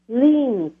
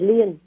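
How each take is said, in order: First: The word is said the English way. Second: The word is said the Vietnamese way. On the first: The speaker calls it right. "mình mới có cái chữ lien" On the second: The speaker calls it wrong. "chứ không phải liên"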